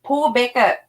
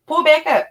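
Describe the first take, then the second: First: Said in the usual way. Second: Higher and louder, punching back; heated repeat. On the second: Retold or imitated. Repeating the demand to the driver, heated and louder. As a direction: push the repeat up with anger. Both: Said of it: "I told her, I said".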